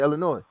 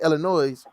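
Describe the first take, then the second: First: The final S is silent. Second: The final S is pronounced. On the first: This is how locals say it. "like we don't" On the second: This is how people elsewhere say it. "maybe they say the S"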